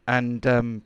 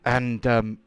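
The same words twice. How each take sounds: The two takes are said the same way.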